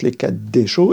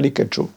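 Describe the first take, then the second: First: A short vowel follows the doubled d sound. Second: No vowel follows the d sound. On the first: The speaker calls it right. "il se prononce les quatre décho" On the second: The speaker calls it wrong. "et pas les quatre cho"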